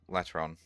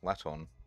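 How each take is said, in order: First: The name is said with an R sound. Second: The name is said without an R sound. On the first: The speaker calls it wrong. "I've been calling you Latron, but I just realized there's no R in there" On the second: The speaker calls it right. "there's no R in there. That's Laton"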